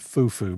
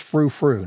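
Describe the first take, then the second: First: Each syllable starts with a plain 'f' sound. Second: Each syllable starts with an 'fr' sound. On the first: The speaker calls it wrong. "not foo foo" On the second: The speaker calls it right. "It is frou frou"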